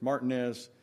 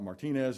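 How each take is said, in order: First: It is said the local Georgia way. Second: It is said the usual, non-local way. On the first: The speaker calls it right. "We have our own way" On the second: The speaker calls it wrong. "it's not Martinez"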